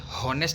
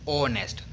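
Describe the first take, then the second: First: The word begins with an audible h sound. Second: The word begins with a vowel, no h. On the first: The speaker calls it wrong. "हॉनेस्ट नहीं बोलेंगे, हॉनेस्ट wrong sound होगा" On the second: The speaker calls it right. "उसका हम sound कैसे करते हैं? ओनेस्ट"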